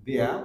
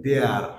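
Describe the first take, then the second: First: THERE as "deh-uh" without the r; real sound. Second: THERE as "dear" with a sounded r; common wrong form. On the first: Teacher showing the real sound, r dropped. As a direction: say "there" ending in a neutral vowel, no r. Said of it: "real sound হয়". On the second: Teacher showing how we mispronounce it, common form. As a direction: say "there" long, with the final r. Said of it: "not there হচ্ছে না". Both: Shown as a demonstration.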